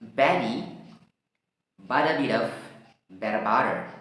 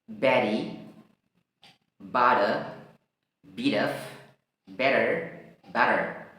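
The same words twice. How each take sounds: First: The words are said quickly. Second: The words are said slowly.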